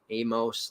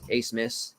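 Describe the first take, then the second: First: The name does not begin with 'ace'. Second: The name begins with the sound 'ace'. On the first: The speaker calls it wrong. "not Amos" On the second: The speaker calls it right. "that's how you say it"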